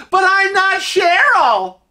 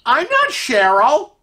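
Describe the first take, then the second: First: Very high, drawn-out protest; calling after him. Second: High, slow, questioning lift at the end; puzzled objection. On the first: Lady still protesting as he walks away, calling out. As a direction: call it out slowly after someone walking off. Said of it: "she's still going". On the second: Lady wrongly called Cheryl as he leaves, puzzled. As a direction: object slowly, pitched up in confusion. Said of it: "And she goes". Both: Acted.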